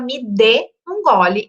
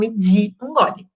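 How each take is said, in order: First: The word de has a full, stressed E vowel. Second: The word de has a weak, reduced I vowel. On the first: The speaker calls it right. "eu necessariamente vou falar me dê um gole" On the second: The speaker calls it wrong. "e não me di um gole"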